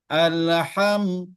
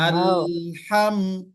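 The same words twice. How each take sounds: First: The L sound is released at once. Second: The L sound is held before moving on. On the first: The speaker calls it wrong. "orang yang langsung melepaskan. ... Itu salah" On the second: The speaker calls it right. "Yang benar tidak boleh dia langsung dilepaskan"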